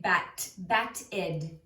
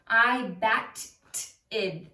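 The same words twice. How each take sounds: First: "bat-ed" as two joined syllables, ending in id; correct ed syllable. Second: "bat-ed" broken up with a loud, overdone T; wrong T ending. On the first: Teacher showing what you always say, "bat-ed" in two syllables. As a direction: say "bat", then add a voiced ed syllable in "bat-ed". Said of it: "You always say". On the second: Teacher showing what not to say, "bat-ed" with overdone T. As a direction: punch and separate the T in "bat-ed". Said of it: "You're not gonna say". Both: Shown as a demonstration.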